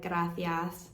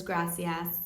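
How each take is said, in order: First: "gracias" with the c lisped as th; Spanish lisp. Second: Said in the usual way. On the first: Shown as a demonstration. Vlogger showing the accent of southern Spain, lisped "gracias". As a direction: lisp the middle of "gracias" into a th sound. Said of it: "the Spanish lisp, like".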